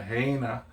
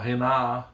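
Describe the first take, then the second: First: The first vowel sounds like ay. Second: The first vowel sounds like eh. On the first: "you don't say, oh, we're going to Heina" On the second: "or Hena"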